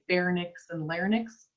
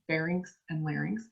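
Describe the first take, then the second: First: The words are not pronounced as they are spelled. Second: The words are pronounced just as they are spelled. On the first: The speaker calls it wrong. "A lot of times people say pharynx and larynx. Nope" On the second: The speaker calls it right. "Say it how you spell it"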